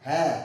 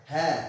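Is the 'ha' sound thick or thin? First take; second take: thin; thin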